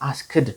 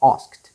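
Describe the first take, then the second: First: The ending is said as an extra 'id' syllable. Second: The ending is said as a short 't' sound. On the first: The speaker calls it wrong. "ብዙዎቻችን አስክድ እንላለን። አን እንደሱ አይባልም።" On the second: The speaker calls it right. "it becomes what? T"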